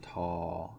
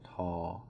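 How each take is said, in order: The two takes are said the same way.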